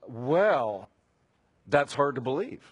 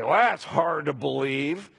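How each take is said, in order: First: It sounds doubtful and questioning, like real surprise. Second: It sounds scornful and dismissive, not like a question. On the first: The news is hard to accept; is it really true? "could it be really? Are you sure?" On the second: The news is being dismissed with contempt. "an editorial comment about your disdain for the news"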